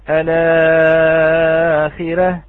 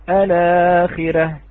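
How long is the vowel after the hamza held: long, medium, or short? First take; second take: medium; short. First: The vowel after the hamza is held medium. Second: The vowel after the hamza is held short. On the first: "والتوسط" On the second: "بالقصر"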